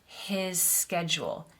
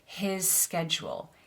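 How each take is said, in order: First: The two s sounds are joined together. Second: The same.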